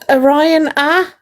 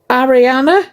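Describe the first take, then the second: First: The name begins with the sound of 'Orion'. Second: The name begins with the sound of 'Ari'. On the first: It follows the spelling. "I'm saying it how it's spelled" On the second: It is the pronunciation others prefer. "the way they want me to say it"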